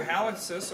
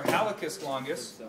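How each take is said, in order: First: "hallucis" with a KS sound in the middle; KS pronunciation. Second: "hallucis" with a plain K, no S after it; hard C pronunciation. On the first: Teacher naming the big toe muscle, "hallucis" said with KS. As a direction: say "hallucis" as HAL-uck-siss. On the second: Teacher giving the alternative name, "hallucis" said with a K. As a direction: say "hallucis" as HAL-uh-kiss. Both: Shown as a demonstration. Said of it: "or hallucis longus".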